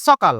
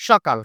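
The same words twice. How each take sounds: First: সকাল said 'sokal' with dental s; s instead of sh opening সকাল; Chapainawabganj local pronunciation. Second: সকাল said 'shokal', palatal sh; sh, not s, opening সকাল; correct sh pronunciation. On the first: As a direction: show the local hissed s in সকাল. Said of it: "চাঁপানবাবগঞ্জে কেন জানি উচ্চারণ হয়". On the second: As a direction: model সকাল with sh at the start. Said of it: "এটা উচ্চারণ হবে". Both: Shown as a demonstration.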